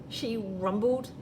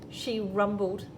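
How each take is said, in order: Both takes have the same delivery.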